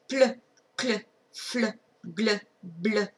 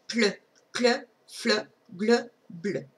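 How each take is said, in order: No difference in how they are said.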